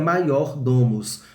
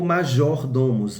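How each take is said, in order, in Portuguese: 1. A consoante do meio é som de Y. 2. A consoante do meio é som de J.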